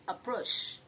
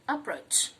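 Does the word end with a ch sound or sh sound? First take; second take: sh; ch. First: The word ends with a soft sh sound. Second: The word ends with a hard ch sound. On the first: The speaker calls it wrong. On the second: The speaker calls it right.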